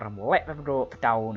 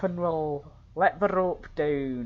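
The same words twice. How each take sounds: First: It is spoken in a gruff pirate voice. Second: It is spoken in a Scottish-sounding accent. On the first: The speaker calls it right. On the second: The speaker calls it wrong. "I don't know why they're Scottish"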